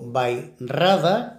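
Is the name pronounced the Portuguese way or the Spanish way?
Spanish. It is pronounced with Spanish sounds. "como diríamos en español"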